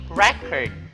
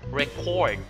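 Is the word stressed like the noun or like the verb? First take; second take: noun; verb. First: It carries the noun stress pattern. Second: It carries the verb stress pattern. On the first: It names a thing. "in the nouns, we say record" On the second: It names an action. "In the verb, record"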